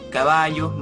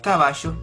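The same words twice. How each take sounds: First: The double L sounds like a y. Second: The double L sounds like sh. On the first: "en Chile digamos" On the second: "en Argentina se digan"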